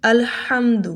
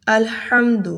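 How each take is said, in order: First: الحمد with the ہا from mid throat; example word. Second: الحمد with a sharper throat ح; example word again. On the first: Teacher giving الحمد as a practice example. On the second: Teacher repeating الحمد to drill the letter. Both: Shown as a demonstration. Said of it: "اس کی مثال لیجئے".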